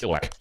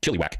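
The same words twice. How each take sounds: First: Chilliwack with a short "uh" middle, "CHILL-uh-wack"; alternative pronunciation. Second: Chilliwack with an "ee" middle, "CHILL-ee-wack"; alternative pronunciation. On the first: Host reading out a viewer's hometown, Chilliwack said "CHILL-uh-wack". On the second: Host trying another reading of a hometown, Chilliwack said "CHILLY-wack". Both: Shown as a demonstration. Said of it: "Could be Chilliwack, I guess".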